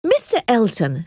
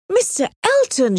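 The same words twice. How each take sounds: First: Measured, mildly firm address; understated reprimand. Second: High-pitched, scandalised exclamation; startled, high protest; shocked cry. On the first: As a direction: say the name firmly, without raising the voice. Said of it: "said Emma firmly". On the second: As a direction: cry out the name in shock, voice jumping up. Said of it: "she cried". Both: A narrator's reading.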